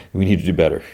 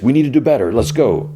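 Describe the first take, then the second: First: Said in the usual way. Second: Raised, forceful urging; pushy coach demand. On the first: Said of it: "he doesn't even say anything like". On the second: Retold or imitated. Johnny pushing the team after the loss, forceful.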